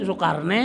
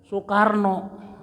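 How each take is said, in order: First: The name ends with an e vowel. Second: The name ends with an o vowel. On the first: This is how Betawi people say it. "Lamun di Betawi jangan deui Sukarne" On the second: This is how Javanese people say it. "Sukarna diganti ku o. ... Eta lamun di Jawa meureun"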